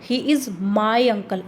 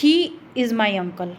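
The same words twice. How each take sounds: First: The stress is on the word my. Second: The stress is on the word he.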